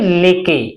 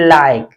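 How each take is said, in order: First: It has an 'e' vowel and a voiced final e. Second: It has an 'ai' vowel and silent final e. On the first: The speaker calls it wrong. "न कि लेके, लेके नहीं पढ़ेंगे" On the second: The speaker calls it right. "इसे हम पढ़ेंगे लाइक"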